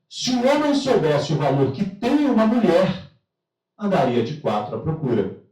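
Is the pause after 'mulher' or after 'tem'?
after mulher. The pause falls right after the word 'mulher'. Men would crawl searching for women if they knew their value. "olha como é que um detalhe muda tudo"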